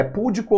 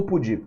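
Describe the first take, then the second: First: "púdico" stressed on PÚ; "púdico" with weight on the opening syllable; stress on first syllable. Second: "pudico" stressed on DI; "pudico" with weight on the second syllable; stress on middle syllable. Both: Shown as a demonstration. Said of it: "é púdico ou pudico?".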